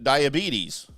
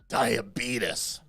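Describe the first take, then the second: First: The word has a plain, standard pronunciation. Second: The word has an odd, imitated pronunciation. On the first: This is how the speaker used to say it. The speaker calls it wrong. "I pronounced it diabetes" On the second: This is how a man on TV says it. The speaker calls it right. "he tells you it's called diabetes"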